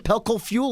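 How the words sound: The voice rises at the end. It sounds like a question. "You notice how he raised his voice up?"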